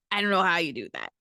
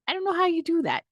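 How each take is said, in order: First: Said in the usual way. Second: Incredulous high repeat; high-pitched disbelief. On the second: Real, not acted.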